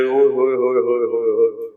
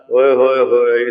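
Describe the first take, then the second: First: Quick, rolling cry of wonder; amazed exclamation. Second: Playful echo of wonder. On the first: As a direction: gush with delight at the sight. Companion marvels at playful ride. (تیز حیرت بھری داد) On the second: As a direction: tease back with affectionate delight. Prophet playfully echoes the exclamation. (پیار بھری حیرت سے جواب) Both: Retold or imitated.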